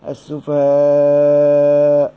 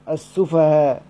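First: The final long vowel is held very long. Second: The final long vowel is held briefly. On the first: "وإما أن أمدها" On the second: "إما أن أحذفها يبقى صير عندي ألف واحدة، فأقرأ بالكسر"

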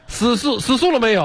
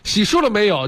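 First: The first word starts with an 's' sound. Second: The first word starts with an 'x' sound.

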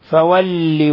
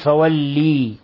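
First: The final i vowel is short. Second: The final i vowel is drawn out long. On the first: The speaker calls it right. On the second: The speaker calls it wrong.

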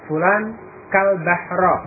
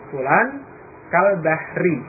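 First: The last word ends with an 'a' vowel. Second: The last word ends with an 'i' vowel. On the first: The speaker calls it wrong. "membacanya dengan fathah huruf akhirnya kal bahra" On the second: The speaker calls it right. "dengan kasrah, dengan jar"

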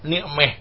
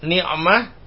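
First: The vowel before the final h sounds like 'e'. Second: The vowel before the final h sounds like 'a'.

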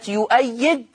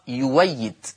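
First: The word has a glottal stop after the first syllable. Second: The glottal stop is replaced by a w sound. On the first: This is the basic reading of the word. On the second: This is the reading of one transmitted recitation tradition.

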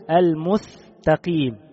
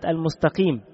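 First: The s sound is replaced by a th sound. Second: The word is said with its normal consonants. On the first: The speaker calls it wrong. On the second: The speaker calls it right.

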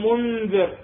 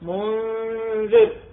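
First: The n sound is pronounced fully and clearly. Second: The n sound is hidden with a nasal hum. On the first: The speaker calls it wrong. "ما أقول منذر" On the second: The speaker calls it right. "أشم من النون الساكنة ويا من في حرف الإخفاء"

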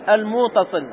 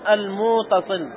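First: The vowel after the m is short. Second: The vowel after the m is drawn out long.

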